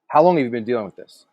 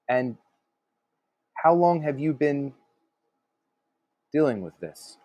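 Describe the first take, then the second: First: The question runs straight through without pausing. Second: The question is broken up with a pause. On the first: It feels blunt and too forceful. The speaker calls it wrong. "if you just kind of say it" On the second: It lowers the listener's guard. The speaker calls it right. "if you say it broken up just a little bit"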